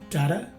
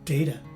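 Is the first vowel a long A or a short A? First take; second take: short A; long A. First: The first vowel is a short A sound. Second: The first vowel is a long A sound. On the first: "short A" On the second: "it's a long A in the second variation"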